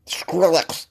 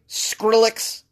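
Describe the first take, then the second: First: Mouthful of cornbread. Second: Said in the usual way. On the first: Shown as a demonstration. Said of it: "like I got a mouthful of cornbread". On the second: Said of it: "Gotta say it like I got a mouthful of cornbread".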